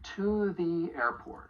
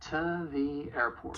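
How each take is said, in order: First: The word 'to' is stressed, with a full vowel. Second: The word 'to' is weak, reduced to 'ta'.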